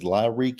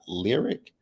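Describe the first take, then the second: First: It is said the fancy way, as Lyrique. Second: It is said like the plain word lyric. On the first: This is the name he was called in the scene. The speaker calls it wrong. "he called this man Lyrique" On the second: This is how the spelling reads. The speaker calls it right. "that man's name is pronounced Lyric"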